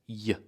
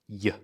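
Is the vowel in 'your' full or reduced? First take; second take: reduced; reduced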